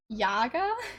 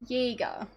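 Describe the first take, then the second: First: The first vowel sounds like 'ah'. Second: The first vowel sounds like 'eh'. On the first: It is read as spelled without the two dots. The speaker calls it wrong. "with that spelling, you'd pronounce it Yaga" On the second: It is the actual German word for hunter. The speaker calls it right. "the pronunciation of the actual word hunter is Jäger"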